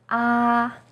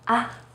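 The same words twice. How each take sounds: First: The pitch stays high and level throughout. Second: The syllable is short and light, without stress. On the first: "is high and steady" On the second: "in a more light and short way"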